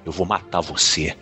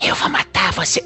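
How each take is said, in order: First: It is said in a natural, sincere voice. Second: It is said in an exaggerated put-on voice.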